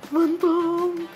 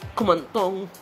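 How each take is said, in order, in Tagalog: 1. Sinasabi ito sa takot at natatakot na boses. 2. Sinasabi ito sa malungkot at umiiyak na boses. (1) "o natatakot ka naman" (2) "masama ang loob mo. Naiiyak"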